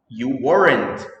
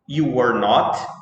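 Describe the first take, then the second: First: Not is reduced and joined onto were. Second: Not is said as a separate full word.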